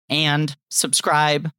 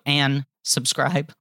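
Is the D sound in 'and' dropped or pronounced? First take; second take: pronounced; dropped. First: The D in 'and' is clearly pronounced. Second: The D in 'and' is dropped, slurring words together. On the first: The speaker calls it right. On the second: The speaker calls it wrong.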